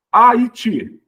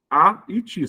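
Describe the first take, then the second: First: Said in the usual way. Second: "Haiti" split after the A, short break before ITI; syllables separated. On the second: Shown as a demonstration. Teacher showing where it separates, syllables parted. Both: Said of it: "Separa aqui".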